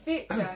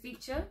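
First: The word is said to sound like theatre. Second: The word is said the standard way.

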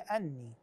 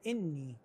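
First: The word starts with a short a vowel. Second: The word starts with a short i vowel. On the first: The speaker calls it right. "صحيح هي أني" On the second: The speaker calls it wrong. "بعضهم يقرأها بالكسر يقول إني"

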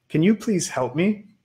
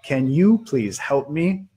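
First: The sentence is read at a fast pace. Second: The sentence is read at a slow pace. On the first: "si lo estaba leyendo muy rápido para ustedes" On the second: "le voy a leer una vez más, lentito"

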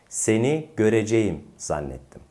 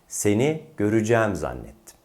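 First: The verb is pronounced fully, as spelled. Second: The verb is pronounced in reduced colloquial form. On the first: The speaker calls it wrong. "Tekrar yanlış yapalım" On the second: The speaker calls it right. "Şimdi doğrusunu yapalım"

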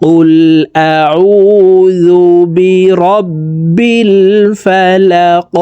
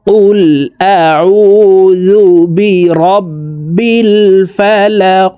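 The two takes are said the same way.

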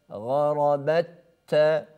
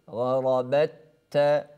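Both takes have the same delivery.

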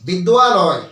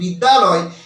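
First: It is said with a clear 'wa' glide. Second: It is said plainly with no 'wa' glide. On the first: The speaker calls it right. "যেমন ওয়া উচ্চারণ হয়" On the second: The speaker calls it wrong. "যখন আমি সাধারণভাবে বলছি বিদ্যালয়, এটা কিন্তু উচ্চারণ ঠিক হচ্ছে না"

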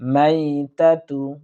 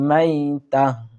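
First: The word ends with a 'tu' sound. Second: The word ends with an 'h' sound. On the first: The reading continues without stopping. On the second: The reader stops on this word.

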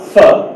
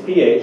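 First: It is said as a single word. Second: It is said as two separate letters. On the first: The speaker calls it wrong. "it's not pho, right? It's not the word" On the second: The speaker calls it right. "It's pH"

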